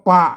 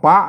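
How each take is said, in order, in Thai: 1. พยางค์นี้ออกเสียงเป็นเสียงต่ำ 2. พยางค์นี้ออกเสียงเป็นเสียงจัตวา (1) "เพิ่นอ่านว่าปะครับอ่าเสียงเอก" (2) "อ่านว่าปะนะครับเสียงจัตวา"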